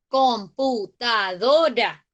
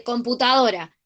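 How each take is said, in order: First: "computadora" slowly as com - pu - ta - do - ra; teacher counting out "computadora" syllable by syllable; split into syllables. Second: Said in the usual way. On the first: Shown as a demonstration. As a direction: break "computadora" into five separate syllables. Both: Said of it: "Fíjense que tiene un montón de sílabas".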